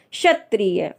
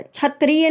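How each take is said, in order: First: क्षत्रिय said as 'shatriya'; correct pronunciation. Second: क्षत्रिय mispronounced as 'chhatriya'; wrong pronunciation. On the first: Teacher correcting the word for learners, careful correct pronunciation. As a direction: open क्षत्रिय with a clear 'sha'. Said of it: "क्षत्रिय नहीं होता है". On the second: Teacher rejecting the mistaken form, mispronunciation demo. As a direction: open क्षत्रिय with 'chha', raised pitch. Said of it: "नहीं होता है". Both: Shown as a demonstration.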